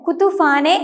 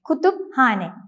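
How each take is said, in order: First: The p and h merge into an f sound. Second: The p and h are pronounced separately. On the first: The speaker calls it wrong. "ഇംഗ്ലീഷിലേതുപോലെ കുത്തുഫാനെ എന്ന് ഉച്ചരിക്കുകയില്ല" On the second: The speaker calls it right. "രണ്ട് ലെറ്റേഴ്സിനെയും വ്യത്യസ്തമായി ഉച്ചരിച്ചുകൊണ്ട്"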